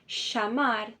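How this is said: The double L sounds like sh. This is the Argentine and Uruguayan accent. "Argentina e do Uruguai, esse doble L ... equivale a um C H, a um S H"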